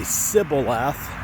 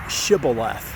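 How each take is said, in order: First: The word begins with a soft s sound. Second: The word begins with an sh sound. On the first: The speaker belongs to the other group. "with a soft S sound" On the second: The speaker belongs to the group guarding the river. "with an S H sound"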